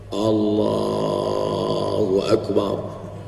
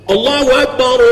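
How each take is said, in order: First: It is said softly and weakly. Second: It is said loudly and forcefully.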